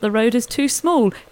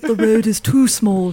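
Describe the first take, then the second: First: It is spoken in the speaker's own normal voice. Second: It is spoken in a deeper put-on impersonating voice.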